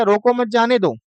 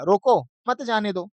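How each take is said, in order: First: "रोको मत" kept together, falling on "जाने दो"; don't-stop phrasing. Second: "रोको", short break, then "मत जाने दो" together; pause after रोको. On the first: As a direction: run "रोको मत जाने दो" on without a break after "रोको". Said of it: "ऊपर वाले का अर्थ". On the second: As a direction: split off "रोको" as a command of its own. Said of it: "विराम लगा दिया है". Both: Shown as a demonstration.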